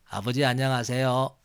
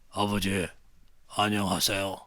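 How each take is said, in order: First: It is said in a quiet, gentle voice. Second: It is said in a tough, rough voice.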